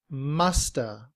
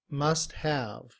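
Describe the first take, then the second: First: The words blend into one short reduced word. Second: Both words are said fully and separately. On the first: "in reduced form" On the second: "In citation form"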